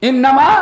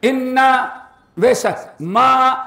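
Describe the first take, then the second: First: Loud "इन्नमा" in one piece; joined as one word. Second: "इन्ना" and "मा" as two separate words; read separately. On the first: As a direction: say "इन्नमा" loudly, unbroken. ("इन्नमा" ज़ोर से, एक साथ) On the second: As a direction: stop after "इन्ना", hold "मा" on its own. ("इन्ना" और "मा" अलग-अलग पढ़कर) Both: Shown as a demonstration. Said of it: "अलग अलग पढ़ो तो क्या".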